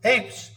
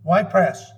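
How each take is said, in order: First: The name is said with one syllable, 'apes'. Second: The name is said with two syllables, 'Y-press'. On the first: The speaker calls it right. "but it's apes" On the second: The speaker calls it wrong. "I spelled with a Y"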